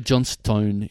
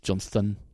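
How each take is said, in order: First: The last syllable is a full 'stone'. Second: The last syllable is reduced to a weak 'ston'.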